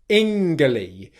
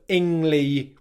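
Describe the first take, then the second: First: A hard G sound comes before the L. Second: An NG sound comes before the L. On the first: The speaker calls it wrong. "where you pronounce that G letter as a G sound" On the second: The speaker calls it right. "which is correct"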